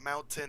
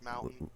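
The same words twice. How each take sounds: First: The t sound is clearly pronounced. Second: The t sound is dropped, Utah style. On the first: "it's not"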